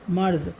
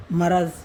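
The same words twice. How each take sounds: First: मर्ज़ in two beats, marz, no vowel after र; correct pronunciation. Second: मरज़ read as three syllables, ma-ra-z, with the extra vowel; misprinted reading. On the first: Teacher giving students the correct मर्ज़. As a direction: clip मर्ज़ tight with र and ज़ joined. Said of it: "मर्ज़ बोला जाएगा इसको". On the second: Teacher reading the misprinted word मरज़ aloud. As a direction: say मरज़ as printed, with a vowel after म and after र. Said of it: "इसमें छाप दिया है इन्होंने गलत". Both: Shown as a demonstration.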